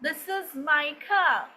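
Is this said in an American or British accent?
British. It is said in a British accent. "they are not going to pronounce the r sound at the end"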